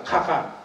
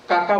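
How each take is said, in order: First: কাকা said as খাকা with a breathy kh. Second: Said in the usual way. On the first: Shown as a demonstration. Showing how Cachar speakers say কাকা with kh. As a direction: say খাকা, turning each k into kh. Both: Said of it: "কাকা বলে না".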